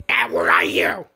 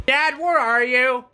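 First: Hushed whisper into the dark. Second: Said in the usual way. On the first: Real, not acted. Son searching the dark room, whispering. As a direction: breathe it so nobody hears.

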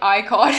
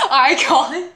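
First: Said in the usual way. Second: Giggling the word back; laughing. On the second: Retold or imitated. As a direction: repeat it through a laugh. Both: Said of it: "they're like".

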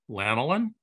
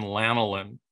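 First: "Lanolin" swooping up into a question; querying echo. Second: Said in the usual way. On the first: Acted. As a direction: repeat "Lanolin" as if doubting the word. Queries the odd quoted word.

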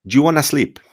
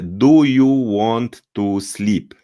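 First: "do you wanna sleep" as djoo-wanna-sleep; connected, clipped-down djoo for do you in "do you wanna sleep"; native reduced speech. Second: Slow, separate words in "do you want to sleep"; over-articulated "do you want to sleep", dragged out; careful Polish learner. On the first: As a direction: say "do you wanna sleep" higher and run together. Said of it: "Natomiast oni powiedzą". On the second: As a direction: say "do you want to sleep" with full doo, you, too. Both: Shown as a demonstration.

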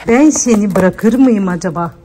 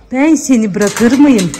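First: Said in the usual way. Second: Slow, tender reassurance to a pet. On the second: Real, not acted. To the crying dog, a slow tender reassurance. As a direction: stretch it out soothingly.

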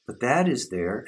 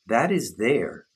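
First: "But that is there" with "that" pitched up and rising; stress on that. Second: "That is there" with the word "is" pressed and falling; stress on is. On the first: Teacher to listeners, stressing "that" in "that is there". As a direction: point hard at "that", higher. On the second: Teacher to listeners, stressing "is" in "That is there". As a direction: lean on "is", slowly. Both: Shown as a demonstration.

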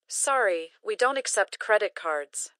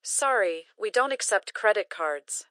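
Both takes have the same delivery.

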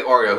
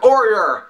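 First: Said in the usual way. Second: "Oreo" said as kor-ee-er, higher and louder; weird Oreo. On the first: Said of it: "He doesn't say Oreo". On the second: Retold or imitated. Vlogger imitating the rapper's strange "Oreo" pronunciation. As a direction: bend "Oreo" into an r-ending, rapper style. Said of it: "he says it weird".

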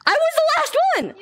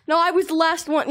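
First: High indignant cry; 1 indignant shriek. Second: Said in the usual way. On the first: Real, not acted. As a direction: shriek it in outrage. Protesting being tagged last.

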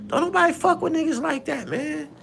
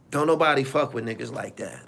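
First: Much higher, thinner-sounding voice; high-pitched exclamation. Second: Said in the usual way. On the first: Acted. Host dismissing a troublemaker, high-pitched exclamation. High take, then said again plainly.

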